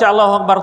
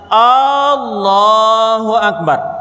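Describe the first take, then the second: First: The opening vowel is said short. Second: The opening vowel is drawn out long. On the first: It states that God is the greatest. The speaker calls it right. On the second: It asks whether God is the greatest. The speaker calls it wrong.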